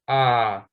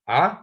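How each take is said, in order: First: The vowel is long. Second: The vowel is short. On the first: The speaker calls it right. "the letter has to be longer" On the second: The speaker calls it wrong. "not a"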